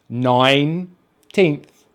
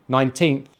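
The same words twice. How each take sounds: First: Put-on "Nineteenth" very slowly as nine, pause, teenth; syllable by syllable. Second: Said in the usual way. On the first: Shown as a demonstration. Teacher joining nine and teenth for learners, "Nineteenth" slowly split. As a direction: break "Nineteenth" into two long parts. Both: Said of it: "We just say the number nine".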